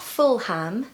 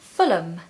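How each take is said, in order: First: The ending is pronounced as a full 'ham'. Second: The ending is pronounced as a reduced 'um'. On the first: The speaker calls it wrong. "places ending in H A M or ham ... so it's not Fulham" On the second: The speaker calls it right. "are actually usually pronounced as um ... no, it's Fulham"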